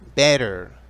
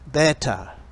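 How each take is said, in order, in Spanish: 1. Se dice con un acento americano. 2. Se dice con un acento no americano.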